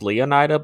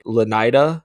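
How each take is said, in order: First: The name is said with four syllables. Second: The name is said with three syllables. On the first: The speaker calls it wrong. "I'm guessing it's not pronounced Leonida" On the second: The speaker calls it right. "but more like Lenida"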